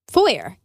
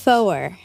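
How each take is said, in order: First: The name sounds like the word 'foyer'. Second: The name sounds like the word 'for'. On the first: The speaker calls it wrong. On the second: The speaker calls it right.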